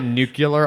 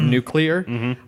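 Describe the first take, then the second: First: The word is pronounced like 'nucular'. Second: The word is pronounced like 'nuclear'. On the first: The speaker calls it wrong. "I also say nuclear a lot instead of" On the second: The speaker calls it right. "instead of nuclear"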